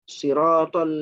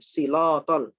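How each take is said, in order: First: The middle consonant is a clear R. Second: The middle consonant is an L. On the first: The speaker calls it right. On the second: The speaker calls it wrong.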